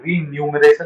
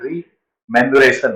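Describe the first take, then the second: First: The word begins with the sounds 'renu'. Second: The word begins with the sounds 'remu'. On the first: The speaker calls it wrong. "रीन्यूमरेशन नहीं है" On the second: The speaker calls it right. "रीमेन्युरेशन है, यानी आर ई एम पहले आएगा"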